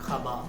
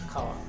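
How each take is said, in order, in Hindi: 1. बीच की ध्वनि b है। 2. बीच की ध्वनि w ग्लाइड है। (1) "অনেকে বলে খাবা, ... বটা চলে এলো" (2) "বানান কি হবে? খয়াকার আকার"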